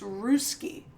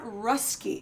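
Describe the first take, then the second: First: The word does not rhyme with husky. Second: The word rhymes with husky. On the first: The speaker calls it right. "it's Ruski" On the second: The speaker calls it wrong. "It sounds like you're trying to to say a, a a husky"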